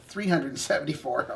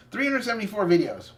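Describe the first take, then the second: First: Said in the usual way. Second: "hundred" leaned on in "Three hundred seventy-four videos"; stressed correction. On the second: Shown as a demonstration. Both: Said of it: "No, no, no, my bad".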